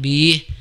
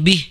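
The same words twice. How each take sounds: First: The final vowel is drawn out long. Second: The final vowel is held short. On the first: The speaker calls it wrong. "Bukan bih. Tidak dipanjangkan" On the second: The speaker calls it right. "bi pendek ya"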